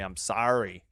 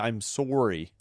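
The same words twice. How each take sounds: First: It is said with a Midwestern-sounding vowel. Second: It is said with a Canadian-sounding vowel. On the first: This is how the speaker talks. "I say" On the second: This is not how the speaker talks. "I don't say"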